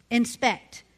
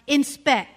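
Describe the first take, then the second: First: Said in the usual way. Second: "Inspect" said afresh, firmly, for listeners who missed it; careful re-pronunciation. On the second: Shown as a demonstration. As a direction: say "Inspect" emphatically to clarify the word. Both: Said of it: "am I not saying it right".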